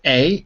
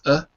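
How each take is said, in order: First: The vowel is full and clearly pronounced. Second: The vowel is reduced to a weak schwa. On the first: The speaker calls it wrong. "Instead of a" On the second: The speaker calls it right. "it's a"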